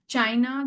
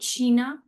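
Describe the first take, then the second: First: The word has the English pronunciation. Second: The word has the German pronunciation. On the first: "the spelling is same" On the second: "but we'll call it China"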